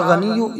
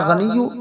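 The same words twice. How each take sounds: The two takes are said the same way.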